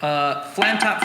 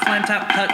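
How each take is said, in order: First: Said in the usual way. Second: Flam tap higher and louder; said with a higher, louder accent; accented count. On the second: Shown as a demonstration. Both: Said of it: "Left hand".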